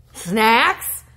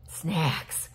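First: Surprised. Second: "Snacks." whispered, lower and softer, falling. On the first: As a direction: shout "Snacks?" with a sharp upward lilt. Surprised at snacks in letter. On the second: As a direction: breathe "Snacks." as a secret aside. Repeats word to herself. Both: Real, not acted.

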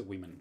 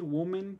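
First: Women said as WI-men; usual pronunciation. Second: Woman with u in the first syllable; less usual pronunciation. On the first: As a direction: say women with a short i first. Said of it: "regularmente la gente dice women". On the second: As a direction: say woman as WU-men. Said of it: "sí pueden decir woman". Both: Shown as a demonstration.

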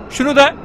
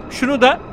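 The two takes are said the same way.

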